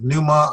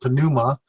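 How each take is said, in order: First: The word starts with n; the p is silent. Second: The word starts with a sounded p before n. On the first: "I've kept the P silent" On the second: "if you really want to work hard and say pneuma"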